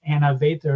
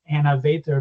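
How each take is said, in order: First: The name is said with an American accent. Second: The same.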